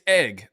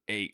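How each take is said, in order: First: The vowel is a short plain 'eh'. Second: The vowel sounds like a Southern 'A'.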